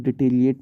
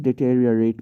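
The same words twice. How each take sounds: First: "डिटेरिएट" with the "or" syllable dropped; mispronounced deteriorate. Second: "डिटेरियोरेट" in full, ending ri-o-rate; correct deteriorate pronunciation. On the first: Teacher shows learners the common misreading, "डिटेरिएट" missing a syllable. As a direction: shorten it to "डिटेरिएट", ending ri-ate. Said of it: "अक्सर इसको लोग डिटेरिएट पढ़ते हैं". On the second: Teacher corrects learners' reading, "डिटेरियोरेट" with all syllables. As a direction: keep every syllable of "डिटेरियोरेट". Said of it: "लेकिन डिटेरियोरेट पढ़ा जाता है इसको". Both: Shown as a demonstration.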